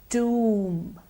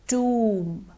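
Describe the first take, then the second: Both takes have the same delivery.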